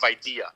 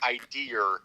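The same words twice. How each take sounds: First: It is said in a standard accent. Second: It is said in a thick Brooklyn accent. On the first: "instead of" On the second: "with the thickest Brooklyn accent"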